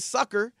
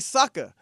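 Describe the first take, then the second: First: The word ends with a pronounced r sound. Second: The word ends in a vowel without r. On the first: "we don't say sucker" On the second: "We say sucker"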